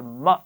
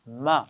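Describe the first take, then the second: First: The syllable is said very quickly. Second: The syllable is said at a relaxed length. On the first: The speaker calls it wrong. "बहुत जल्दी भी नहीं पढ़ा" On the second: The speaker calls it right. "आराम से पढ़ा था"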